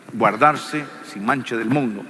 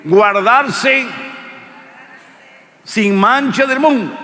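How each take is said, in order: First: Said in the usual way. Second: High, loud lead line for the crowd to repeat; preacher leading the congregation in repeating; call and response. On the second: Shown as a demonstration. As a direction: belt it out so they say it with you. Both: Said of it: "diga conmigo".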